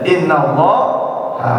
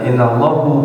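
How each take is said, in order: First: The word ends with an 'a' vowel. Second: The word ends with a 'u' vowel. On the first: The speaker calls it right. "Ya innallah ha" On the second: The speaker calls it wrong. "jangan innallahu"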